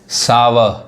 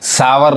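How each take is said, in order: First: The word ends without any r sound. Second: The word ends with an audible r sound. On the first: The speaker calls it right. "वॉवेल के बाद जो आर होता है वो आर नहीं पढ़ाता है" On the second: The speaker calls it wrong. "सावर नहीं कहेंगे"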